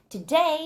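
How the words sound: The pitch rises on the word. The speaker calls it wrong. "막 today 하면서 올라갈 것 같지만"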